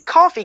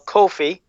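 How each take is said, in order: First: The name sounds like the word 'coffee'. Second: The name does not sound like 'coffee'. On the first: The speaker calls it wrong. "I'm gonna say just for you" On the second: The speaker calls it right. "I said it right"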